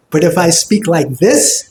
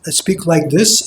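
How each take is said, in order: First: Smiling tone on "speak like this"; "speak like this" spoken through a wide smile; bright. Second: Dull tone without a smile on "speak like this"; "speak like this" with a dull, unsmiling tone; not bright. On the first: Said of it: "it's bright". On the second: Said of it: "it's not bright". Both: Shown as a demonstration.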